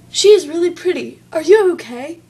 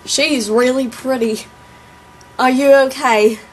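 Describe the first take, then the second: First: Higher, louder mock Australian accent; put-on Australian accent, loud and high. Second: Put-on southern accent. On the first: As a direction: quote him as an Australian, pitched up. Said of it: "Made him out to be all Australian". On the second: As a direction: imitate a southern guy, drawling it out. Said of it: "I can't even do my own southern accent".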